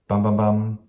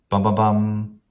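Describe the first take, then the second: The two takes are said the same way.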